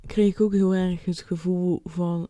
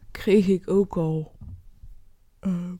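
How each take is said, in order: First: Said in the usual way. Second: Slow, stretched words through a yawn. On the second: Real, not acted. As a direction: speak while fighting a yawn. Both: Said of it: "sorry, ik moet gapen".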